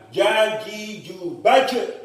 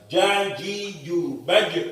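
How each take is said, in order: First: The final echo is overly strong and long. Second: The final echo comes quickly and cleanly. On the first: The speaker calls it wrong. "Itu terlalu berlebihan" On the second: The speaker calls it right.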